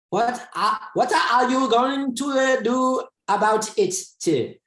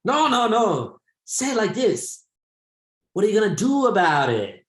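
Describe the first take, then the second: First: Mock Chinese-accented student asking a question; student imitation. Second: Put-on high Chinese-accented teacher voice, firm correction; Chinese-accented teacher demonstrating the phrase; teacher imitation. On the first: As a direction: play a hesitant Chinese learner stumbling through English. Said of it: "And the student's like". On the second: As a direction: mimic the Chinese English teacher showing the right way. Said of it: "And he's like".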